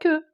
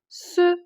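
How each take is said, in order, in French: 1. Elle commence par un son K dur. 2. Elle commence par un son S doux. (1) "ça donne pas que" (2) "ça donne ce"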